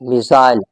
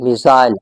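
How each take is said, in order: First: It is said in a British accent. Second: The same.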